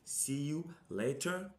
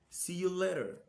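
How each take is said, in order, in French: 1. Il est prononcé avec un accent britannique. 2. Il est prononcé avec un accent américain. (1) "la prononciation britannique" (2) "prononciation américaine"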